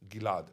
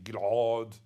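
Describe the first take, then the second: First: No throaty sound comes before the last syllable. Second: A throaty guttural sound comes before the last syllable. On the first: This is how everyone says it nowadays. "Nowadays everybody pronounces it Gilad, a little bit like Julia Gillard" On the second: This is the older, more ancient-sounding pronunciation. "was like that pronounced in Hebrew"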